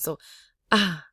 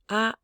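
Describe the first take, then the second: First: The vowel is said low with a breathy voice. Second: The vowel is held on a high level pitch. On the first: "this is the breathy low tone" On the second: "this is a high bell tone"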